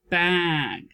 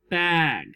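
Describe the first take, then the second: First: The word is said smoothly as one unit. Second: The word is said smoothly as one unit.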